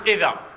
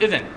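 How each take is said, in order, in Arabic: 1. تنتهي الكلمة بألف طويلة a. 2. تنتهي الكلمة بصوت n. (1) "تحذف عند الوقف وتبدل ألف" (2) "تقف عليها بالنون"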